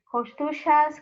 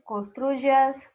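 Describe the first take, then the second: First: The y is pronounced like a ch sound. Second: The y is pronounced like a j sound. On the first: This is how it is said in Argentina. "ou como um C H, como falam os argentinos" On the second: This is how it is said in most of Latin America. "ou como um J"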